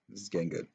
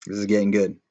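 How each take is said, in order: First: This is getting good said much softer; soft echo. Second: Said in the usual way. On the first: Real, not acted. Reader repeats this is getting good quietly to listeners. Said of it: "repeated softer".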